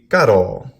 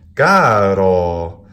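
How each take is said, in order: First: The first vowel is short, the second long. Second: The first vowel is long, the second long. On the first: It means flesh or meat. "An iamb would be" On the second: It means for the dear one. "which is a spondee"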